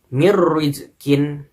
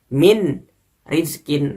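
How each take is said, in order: First: The n sound merges into a doubled r. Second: The n sound is heard before the r. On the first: The speaker calls it right. "tapi melebur ke dalam huruf ro" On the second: The speaker calls it wrong. "dibaca seperti min rizkin. Nah, itu salah ya"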